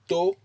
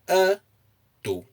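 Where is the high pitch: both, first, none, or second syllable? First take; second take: second; first. First: The high pitch is on the second syllable. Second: The high pitch is on the first syllable. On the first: It means an ear. "you place a high intonation on the O" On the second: It means he is muscular. "if you place the intonation on the uh"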